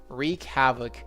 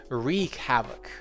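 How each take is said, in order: The two takes are said the same way.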